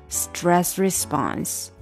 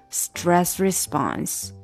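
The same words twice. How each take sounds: No difference in how they are said.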